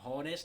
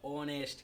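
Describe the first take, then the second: First: The word begins with an audible h sound. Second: The word begins directly with a vowel sound. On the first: The speaker calls it wrong. "होनेस्ट नहीं पढ़ते" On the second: The speaker calls it right. "एच को चालू नहीं होता"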